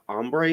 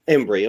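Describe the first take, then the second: First: The name begins with an 'om' sound. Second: The name begins with an 'em' sound. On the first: The speaker calls it wrong. "Is that how I pronounce it?" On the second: The speaker calls it right. "Close, Embry"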